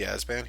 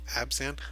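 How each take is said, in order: First: The middle consonants sound like s then b. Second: The middle consonants sound like b then z. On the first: The speaker calls it wrong. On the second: The speaker calls it right.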